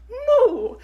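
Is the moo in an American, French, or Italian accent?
Italian. It is a moo in an Italian accent.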